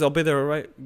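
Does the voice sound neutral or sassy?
neutral. It is said in a flat, neutral tone. It is just plain information. The speaker calls it right. "all it says is"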